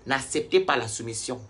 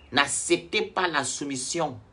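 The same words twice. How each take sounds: First: Said in the usual way. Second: Slow down and lean hard on "pas"; slow emphatic repeat. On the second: Real, not acted. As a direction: drag "pas" out, each word weighed like a warning. (répété lentement, en appuyant sur « pas »)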